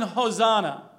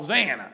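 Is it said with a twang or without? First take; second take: without; twang. First: It is said in a plain accent without twang. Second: It is said with a regional twang.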